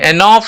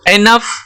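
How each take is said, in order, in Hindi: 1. आखिरी स्वर aw ध्वनि है। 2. आखिरी स्वर छोटा uh ध्वनि है। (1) "एनॉफ नहीं बोलते हैं" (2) "ओ का साउंड यहाँ पे नहीं आ रहा"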